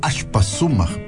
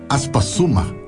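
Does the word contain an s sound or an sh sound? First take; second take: sh; s. First: The word is said with an sh sound. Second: The word is said with a plain s sound.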